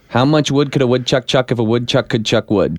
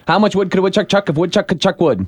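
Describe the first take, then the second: First: It is said at a normal speed. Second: It is said fast.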